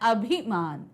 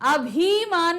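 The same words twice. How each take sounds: First: The vowel after 'bh' is short, not stretched. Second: The vowel after 'bh' is long and stretched. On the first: The speaker calls it right. "छोटी ई की मात्रा नहीं खींचते" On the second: The speaker calls it wrong. "अभिमान नहीं होता"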